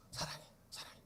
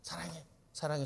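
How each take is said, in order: First: 사랑해 breathed softly, voiceless; tender whisper. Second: Said in the usual way. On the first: Shown as a demonstration. 사랑해 whispered tenderly to oneself as an example. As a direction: whisper love to yourself. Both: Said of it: "진짜로 나를 사랑해".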